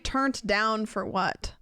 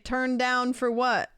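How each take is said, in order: First: The first word ends with a t sound. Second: The first word ends without a t sound. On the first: The speaker calls it wrong. "You don't say turnt down for what?" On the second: The speaker calls it right. "You say turn down for what?"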